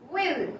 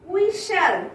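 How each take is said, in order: First: It is said as one contracted syllable. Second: It is said as two full words.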